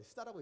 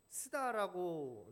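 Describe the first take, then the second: First: Said in the usual way. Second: 스다라고 drawn out slowly and loudly, each syllable pressed; sounded out as 스다. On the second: Shown as a demonstration. 스다라고 spelled out slowly to the congregation, the way the slur was said. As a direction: read SDA as the word 스다라고, slow and loud. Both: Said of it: "우리는 안 읽죠".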